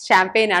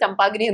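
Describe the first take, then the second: First: It starts with 'sh' and ends in 'pain'. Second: It is read letter by letter, as spelled. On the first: The speaker calls it right. "പക്ഷെ അങ്ങനെയല്ല. ഷാംപെയിൻ ആണ്" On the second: The speaker calls it wrong. "എഴുതുന്ന പോലെ വായിച്ചിട്ടുണ്ടെങ്കിൽ നമ്മൾ ചമ്പാഗ്നി എന്ന് പറഞ്ഞേനെ"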